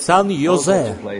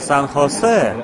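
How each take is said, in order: First: The second word starts with a Y sound. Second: The second word starts with an H sound. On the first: The speaker calls it wrong. "в Кентукки «И» мы произносим как «И»" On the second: The speaker calls it right. "здесь вместо «Х» ставят «И»"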